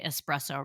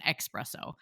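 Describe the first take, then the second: First: The word begins with an 'es' sound. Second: The word begins with an 'ex' sound. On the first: The speaker calls it right. "at least she got us all to say espresso" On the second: The speaker calls it wrong. "Where is everybody bringing the X from?"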